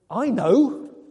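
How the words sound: It sounds irritated and impatient.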